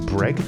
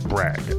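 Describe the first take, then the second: First: The vowel sounds like the one in 'egg'. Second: The vowel does not sound like 'egg'. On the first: The speaker calls it right. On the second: The speaker calls it wrong.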